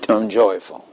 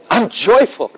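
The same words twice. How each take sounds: First: Half-hearted, obedient recital; unconvincing. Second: High, hammed-up joyful cry; exultant joy. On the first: Acted. Jim obeys God's order to say he's joyful, unconvincingly. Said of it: "that is not very convincing". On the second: Jim finally says it as God told him, joyfully. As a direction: throw it upward like hands in the air. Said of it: "Throw your hands up when you say it".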